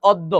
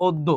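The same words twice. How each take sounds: First: "অদ্য" as awddo, open first vowel; open-vowel mispronunciation. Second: "অদ্য" as oddo, closed o first; o-sound demonstration. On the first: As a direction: start "অদ্য" with aw instead of o. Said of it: "আমরা কিন্তু কেউ বলি না". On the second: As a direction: begin "অদ্য" with a round o. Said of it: "এই জন্য অটা হয়ে যাবে ও". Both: Shown as a demonstration.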